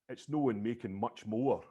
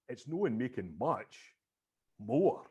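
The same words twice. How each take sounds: First: It is said straight through without a pause. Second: It is said with a deliberate pause inside. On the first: "I was always thinking" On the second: "caesura ... intentionally put in a pause"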